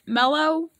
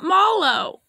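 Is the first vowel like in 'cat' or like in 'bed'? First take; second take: bed; cat. First: The first vowel sounds like the 'e' in 'bed'. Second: The first vowel sounds like the 'a' in 'cat'. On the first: The speaker calls it right. "It's Mellow, I think" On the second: The speaker calls it wrong. "It's not that"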